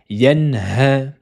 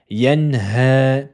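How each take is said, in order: The two takes are said the same way.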